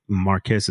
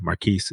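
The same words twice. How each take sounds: First: "Marcus" said as MAR-kiss; short i and s ending in "Marcus"; male-title pronunciation. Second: "Marquise" said as mar-KEES; long ee in the second syllable of "Marquise"; female-title pronunciation. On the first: Explaining the male lord's title, "Marcus" pronounced MAR-kiss. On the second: Explaining the female lord's title, "Marquise" pronounced mar-KEES. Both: Shown as a demonstration. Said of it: "saying it that way".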